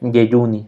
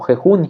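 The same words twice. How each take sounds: First: The j is pronounced like a y. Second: The j is pronounced like a harsh h. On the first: "se pronuncia como una Y" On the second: "como viene escrito"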